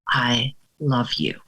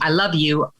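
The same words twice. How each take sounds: First: It sounds exhausted, quiet and deeply sincere. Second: It sounds empty and mechanical, like a routine.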